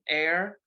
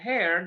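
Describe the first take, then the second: First: The word starts with a vowel, no H sound. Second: The word starts with an audible H sound. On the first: The speaker calls it right. "lots of words with silent H" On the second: The speaker calls it wrong. "that would be kind of funny"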